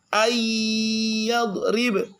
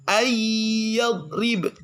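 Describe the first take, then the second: The two takes are said the same way.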